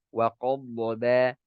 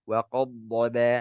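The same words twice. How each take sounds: Both takes have the same delivery.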